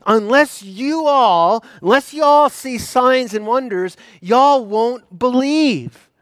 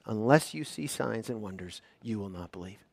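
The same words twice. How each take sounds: First: Higher, louder, slow, stressing all; addressing the crowd. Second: Quiet Jesus quote. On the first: Jesus looking out over the Galileans, loud and slow. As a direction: call it out to the whole crowd, leaning on all. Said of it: "he looks out at all of them and says". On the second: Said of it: "the response of Jesus is". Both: Acted.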